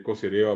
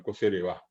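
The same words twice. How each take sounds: First: "cosereva" as co-se-RE-va; non-final stress. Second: "cosereva" as co-se-re-VÁ; Guaraní final stress. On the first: Teacher showing the rejected form, penultimate stress. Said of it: "No es". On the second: Teacher correcting to the Guaraní form, final stress. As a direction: push the last A of "cosereva". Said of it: "sino cosereva". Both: Shown as a demonstration.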